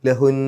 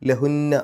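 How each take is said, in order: First: The word ends on a lengthened n sound. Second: The word ends with a nasal n and vowel. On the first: The recitation stops after this word. "നിർത്തുമ്പോൾ ലഹുൻ" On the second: The recitation continues after this word. "നിർത്താതെ ഓതുകയാണെങ്കിൽ ലഹുന്ന"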